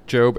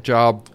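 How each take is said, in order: First: Said in the usual way. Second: "Job" said like the everyday word for work; misread Job. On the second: Shown as a demonstration. Joking about the Bible book's name, "Job" misread to rhyme with "rob". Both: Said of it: "it always looks like Job".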